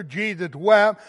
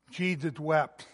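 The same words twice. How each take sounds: First: "Jesus wept" at full voice, weight on wept; declared Jesus wept. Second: "Jesus wept" said low and much softer, stress on Jesus, falling; hushed Jesus wept. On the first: Pastor names the shortest verse for the church, firmly. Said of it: "to the shortest verse in all the scripture". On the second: Pastor reads the shortest verse to the church, hushed. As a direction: let "Jesus wept" sink to a hush. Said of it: "I'm picking up is the phrase". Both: Shown as a demonstration.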